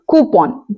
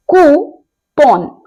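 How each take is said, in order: First: Said in the usual way. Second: कूपन stretched out slowly, "koo-pon"; slow model कूपन ending in "pon"; very slow correct pronunciation. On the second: Shown as a demonstration. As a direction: draw out कूपन syllable by syllable. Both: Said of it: "सही pronunciation होता है".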